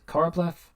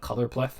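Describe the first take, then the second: First: The first part is said as 'choro'. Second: The first part is said as 'color'.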